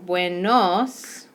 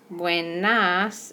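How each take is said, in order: First: BUENOS slowly, leaning on the final "nos"; stressed OS ending. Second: BUENAS with weight on a clear final "nas"; stressed AS ending. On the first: Teacher pointing out endings, "buenos" with a clear final OS. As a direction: stretch "buenos" to show its O-S ending. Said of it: "we have an O S". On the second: Teacher pointing out endings, "buenas" with a clear final AS. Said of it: "A S for the other ones". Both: Shown as a demonstration.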